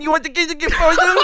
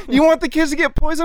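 First: Put-on high childish parroting, laughter creeping in; fifth-grade mocking. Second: High, sing-song mimicry of an accuser; childish mocking. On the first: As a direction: throw it back like a taunting schoolkid. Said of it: "like, fifth grade on this dude". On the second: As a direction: imitate him like a teasing kid. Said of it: "we just started mocking him".

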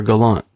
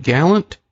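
First: "gallant" with the stress on the second syllable. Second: "gallant" stressed on the first syllable. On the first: Host offering the other surname pronunciation, "gallant" stressed at the end. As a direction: say "gallant" as guh-LAHNT. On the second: Host checking the guest's surname, "gallant" stressed up front. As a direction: say "gallant" like the English word for brave. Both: Shown as a demonstration. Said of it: "if I've been saying it wrong".

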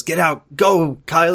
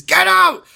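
First: Said in the usual way. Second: Very high screamed order; imitated scream. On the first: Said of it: "And then he goes". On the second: Tom Foss ordering Kyle to leave, imitated scream. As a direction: shriek it as a desperate warning. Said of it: "He, like, screams it".

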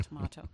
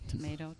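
First: "tomato" said as tuh-MAH-toh; broad "ah" in the middle of "tomato"; alternative pronunciation. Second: "Tomato" said as tuh-MAY-toh; long "ay" in the middle of "Tomato"; usual pronunciation. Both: Shown as a demonstration.

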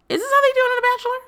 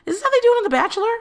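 First: High, fast, louder put-on voice; high, fast mock voice. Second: Pitched way up, fast and loud; shrill-free high incredulous ask; high exasperated question. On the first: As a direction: repeat it in a silly higher character voice. Repeated in put-on voice. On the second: Real, not acted. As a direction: throw the question up high in disbelief.

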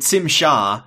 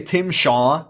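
First: "Tim" begun with an s sound, like "Sim"; alien pronunciation. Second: Said in the usual way. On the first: Shown as a demonstration. Naming this alien to a listener, "Tim" said as "Tsim". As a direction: say "Tim Shaw" as "Tsim Sha". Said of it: "there's this alien named". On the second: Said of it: "you'd be like".

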